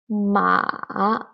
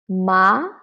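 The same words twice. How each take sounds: First: The pitch dips down and then rises. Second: The pitch rises from middle to high. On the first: "the third tone, go down and go up" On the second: "the second tone. From three to five. It is a rising tone"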